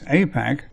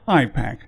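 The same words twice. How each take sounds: First: The first syllable sounds like 'ay'. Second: The first syllable sounds like 'eye'. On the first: The name points toward America. "A for America" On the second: The name points toward Israel. "I for Israel-centric"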